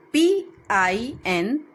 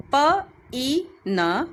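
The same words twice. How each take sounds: First: Said in the usual way. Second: "P E N" with the I voiced as an E sound. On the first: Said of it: "where I is written". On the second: Shown as a demonstration. Teacher showing children that I sounds like E. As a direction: spell it the way "pin" sounds, E for I. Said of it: "we are hearing E".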